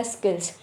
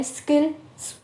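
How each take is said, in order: First: Said in the usual way. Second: skills broken by a brief held pause; syllable stress demo. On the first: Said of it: "तो मैंने skills बोला". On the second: Shown as a demonstration. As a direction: say skills in parts, stopping briefly, then carrying on. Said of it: "एक जो है रुकी मैं और उसके बाद मैंने स्टार्ट करा". (स्किल्स को रुककर, सिलेबल पर ज़ोर देकर बोलना)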